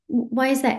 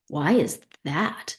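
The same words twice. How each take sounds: First: It sounds openly curious. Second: It sounds accusing and judgmental.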